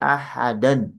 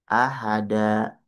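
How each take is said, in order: First: The word ends with an n sound. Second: The word ends with a two-beat long vowel. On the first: The reading continues without stopping. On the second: The reader stops on this word.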